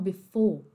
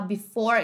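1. É dito com sotaque britânico. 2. É dito com sotaque americano. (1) "eles falam before" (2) "ao invés de falar before"

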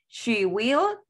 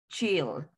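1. Ambas palabras se dicen completas, son dos palabras separadas. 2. Se comprime en una sola sílaba, como chill. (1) "en forma larga" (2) "Se pronuncia chill"

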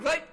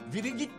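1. Tek, kısa bir hece olarak 'rait' diye okunur. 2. Yazılan her harf ayrı ayrı okunur ve 'viri git' çıkar. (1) "Right diye okunuyor" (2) "Viri git diye yazılıyor"

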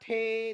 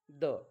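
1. 'the' हा शब्द 'ay' स्वराने म्हटला जातो. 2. 'the' हा शब्द लहान 'uh' स्वराने म्हटला जातो. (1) "आता याला थे, दे असं म्हणू नका" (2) "मुलांना सांगा THE म्हणजे द"

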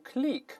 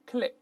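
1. 元音拖长发。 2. 元音短促地发。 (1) "注意不要读click" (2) "它还是发短音发"

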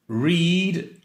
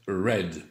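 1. La voyelle est longue, comme dans 'reed'. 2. La voyelle est courte, comme dans 'red'.

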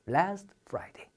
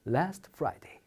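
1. 부드럽고 따뜻하게 말합니다. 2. 부드럽고 따뜻하게 말합니다.

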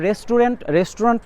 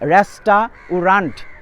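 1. এটি তার স্বাভাবিক, প্রতিদিনের উচ্চারণে বলা হচ্ছে। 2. এটি অক্ষর ধরে ধরে বলা হচ্ছে, 'res-ta-u-rant' হিসেবে। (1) "রেস্টুরেন্ট মানে হচ্ছে" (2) "এটা আমি এভাবে মনে রাখি"

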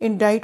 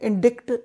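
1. t से पहले कोई k ध्वनि नहीं आती। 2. t से पहले एक k ध्वनि आती है। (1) "इंग्लिश में इंडाइट बोलते हैं" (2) "इंडिक्ट नहीं"

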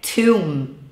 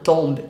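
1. O B é mudo. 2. O B é pronunciado. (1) "A pronúncia é tomb" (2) "e não tomb"

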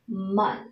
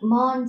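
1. Nguyên âm là 'uh' ngắn, mở. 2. Nguyên âm là 'o' kiểu tiếng Việt. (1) "âm a là một âm a ngắn" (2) "chúng ta sẽ không đọc mon giống như trong tiếng Việt"

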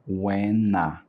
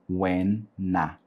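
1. A segunda palavra começa com som de n. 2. A segunda palavra começa com som de n.

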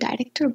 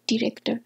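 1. প্রথম শব্দাংশে 'eye' এর স্বরধ্বনি আছে। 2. প্রথম শব্দাংশে একটি ছোট 'ih' স্বরধ্বনি আছে। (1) "এটাকে আমরা অনেকে ডাইরেক্টর বলে থাকি" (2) "এটা হবে ডিরেক্টর"

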